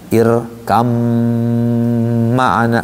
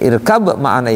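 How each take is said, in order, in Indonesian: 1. Bunyi b hilang, menjadi m ganda. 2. Bunyi b dibaca sebelum m. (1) "dibacanya irkam ma'ana, banyak ngilang masuk ke mim" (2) "irkab ma'ana itu"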